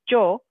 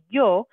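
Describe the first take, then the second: First: The word begins with a hard j sound. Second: The word begins with a soft y sound. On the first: "a harder sound, like more like a j, like a j sound" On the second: "with the y sound"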